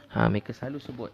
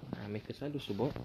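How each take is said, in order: First: Said in the usual way. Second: "Ha, mereka selalu sebut" said much softer, almost to himself. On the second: Real, not acted. Ustaz repeating the point to the congregation, much softer. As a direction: drop the volume right down on the repeat. Repeated line, second take dropped.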